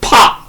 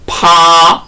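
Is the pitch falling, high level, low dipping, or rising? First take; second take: falling; high level. First: The pitch drops sharply from high. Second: The pitch stays high and level. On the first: "제사 성으로" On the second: "제일 성으로"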